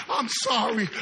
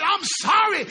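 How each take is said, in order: First: A flat, repeated mock "I'm sorry"; mock apology. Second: "I'm sorry" shouted louder and higher in disgust; fed-up shout. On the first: Preacher mimicking empty apologies, plainly. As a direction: toss off a hollow "I'm sorry". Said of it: "cuántas veces tú digas". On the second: Acted. Preacher fed up with empty apologies, shouting. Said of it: "Yo estoy cansado del".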